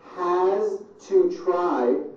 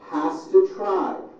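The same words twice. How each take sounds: First: Each word is said separately and in full. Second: The words are squeezed together into reduced sounds.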